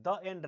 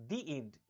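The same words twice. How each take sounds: First: "the" said "duh" before end; wrong THE, "duh". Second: "the" said "dee" before end. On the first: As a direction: say "the" with an open "daw" vowel. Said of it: "नहीं". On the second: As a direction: say "the" with a long ee. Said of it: "क्योंकि ई". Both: Shown as a demonstration.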